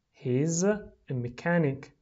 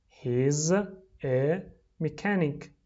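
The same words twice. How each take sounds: First: Said in the usual way. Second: "He's ... a ... mechanic" slowly, with pauses between words; slow, separated model reading for repeating. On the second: Shown as a demonstration. Teacher drills the answer for repeating, word by word.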